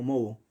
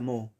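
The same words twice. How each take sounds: First: "moho" with the two o's sounded apart, MO-o; some people's moho. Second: "moho" with silent h, the o's run smoothly as moo; correct silent H. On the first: Teacher showing how some say it, "moho" as MO-o. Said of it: "algunos pronuncian como moho". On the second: Teacher giving the correct form, "moho" with silent h. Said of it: "pero se pronuncia moho". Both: Shown as a demonstration.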